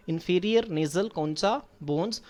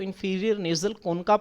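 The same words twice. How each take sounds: First: Concha said slowly as koncha, with a ch sound; slow, careful concha with ch, not k; true pronunciation. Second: Concha said as konka, with a hard k; common mispronunciation. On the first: Teacher gives students the true pronunciation, concha with ch. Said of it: "जो इसकी true pronunciation है". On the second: Teacher shows students the common reading, concha as konka. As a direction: concha with a k sound, the way it is often misread. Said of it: "तो अक्सर जो है, वो इसको ... पढ़ा जाता है". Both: Shown as a demonstration.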